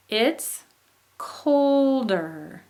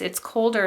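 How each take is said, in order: First: Colder pops up loud then drops below neutral; rise-fall on colder. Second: Said in the usual way. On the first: Shown as a demonstration. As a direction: demo falling tune. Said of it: "drops down below neutral". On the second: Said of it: "the phrase".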